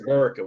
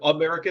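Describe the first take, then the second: First: The first vowel is dropped, leaving three syllables. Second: All syllables are pronounced, starting with the vowel. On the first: "they pronounce it Murica" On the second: "Instead of America"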